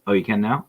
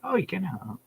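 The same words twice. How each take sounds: First: Said in the usual way. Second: "Oh, you can now" said high with a falling end, not a question; reading "Oh, you can now" aloud like a text, no rising tune; read out flat as a statement. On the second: Shown as a demonstration. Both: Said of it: "I read it like a message".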